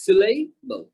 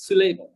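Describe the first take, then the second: First: "Syllable" drawn out in two parts, a gap before the last; teacher slowly modelling "Syllable"; broken into syllables. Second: Said in the usual way. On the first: Shown as a demonstration. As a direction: sound out "Syllable" piece by piece. Teacher sounds out a new word.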